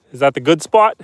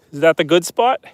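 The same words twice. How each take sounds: The two takes are said the same way.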